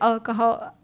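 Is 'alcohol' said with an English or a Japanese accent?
Japanese. It is said with a Japanese-style accent. "they'll say like alcohol"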